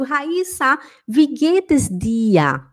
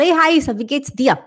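First: Slow wie geht es dir with long closed i in wie; careful German greeting; correct German. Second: Quick wie geht's dir with sloppy short wie; mock careless greeting; wrong German. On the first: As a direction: say wie geht es dir slowly, each word. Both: Shown as a demonstration. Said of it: "Eu não falo".

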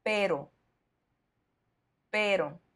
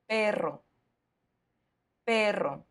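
First: "pero" with one quick tapped r, no trill; teacher's model "pero", the middle R softened to a tap; soft single R. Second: "perro" with a long trilled rr; teacher's model "perro", the middle R strongly trilled; strong double R. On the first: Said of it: "el sonido se suaviza totalmente". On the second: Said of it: "doble R para enfatizar". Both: Shown as a demonstration.

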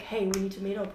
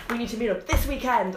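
First: Said in the usual way. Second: Louder, pressing on THIS WEEKEND; insistent demand. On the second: Retold or imitated. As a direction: imitate a pushy demand, hitting "this weekend" hard. His demand retold more insistently.

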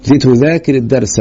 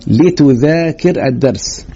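First: Said in the usual way. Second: Slow, drawn-out "لتذاكر" opening on a "li" sound; teacher stretching out "لتذاكر" with kasra on its lam; demonstrated kasra. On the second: Shown as a demonstration. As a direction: say "لتذاكر" very slowly, lam pronounced "li". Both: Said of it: "اللام دي يا أولاد تبقى مكسورة كده".

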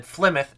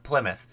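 First: "Flymouth" with an F at the start; the slip "Flymouth", opening on an F sound; mispronounced Plymouth. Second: "Plymouth" with a P at the start; "Plymouth", opening on a P sound; correct Plymouth. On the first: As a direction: say "Flymouth", F in place of P. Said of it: "I said Flymouth instead of Plymouth". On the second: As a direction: say "Plymouth", P rather than F. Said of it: "instead of Plymouth". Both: Shown as a demonstration.

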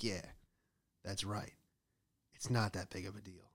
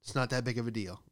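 First: Softer, self-satisfied mock agreement; quietly pleased, said through a smile; smug smile. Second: Said in the usual way. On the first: Worker walks away having got out of trouble, quietly smug. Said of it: "walk away smiling like". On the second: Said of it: "All right, settle down".

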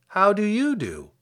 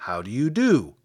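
First: Put-on higher, polite girl's return greeting. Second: Scarecrow voice. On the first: Girl returns the Scarecrow's greeting, politely. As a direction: return the courtesy with a lifted pitch. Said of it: "replied Dorothy politely". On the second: Scarecrow greets Dorothy. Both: A narrator's reading.

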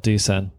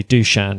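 First: Dusan with a plain s; mistaken pronunciation. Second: Dushan with a "sh" in the middle; corrected pronunciation. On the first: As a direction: say Dusan as "doo-SAN". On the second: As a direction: say Dushan as "doo-SHAN". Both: Shown as a demonstration. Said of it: "it should be Dushan and not Dusan".

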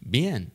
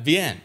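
First: Soft unsure bien; quiet clueless bien. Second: Girlfriend mocking his bien, higher. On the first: Retold or imitated. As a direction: mumble it, not understanding a word. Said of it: "I'm just like". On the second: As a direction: tease the clueless bien, thumbs up. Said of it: "She's like".

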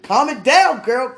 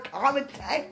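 First: High and loud, still giddy; excited. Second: Calming down. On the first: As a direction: shout it while still worked up. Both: Real, not acted. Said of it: "let me stop".

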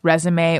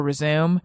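First: "resume" said REZ-uh-may; "resume" in three syllables, the noun. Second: "resume" said rih-ZOOM; "resume" in two syllables, the verb. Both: Shown as a demonstration. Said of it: "I always mispronounce resume or resume".

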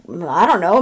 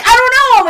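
First: Low, unsure reply; mildly acted uncertainty; retold hesitant shrug. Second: High, loud denial; exaggerated exasperated backtracking; retold flustered protest. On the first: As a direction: answer reluctantly, pitched down. Johnny's first, unsure answer. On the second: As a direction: protest it, pitched way up. Johnny protests at her insistence.

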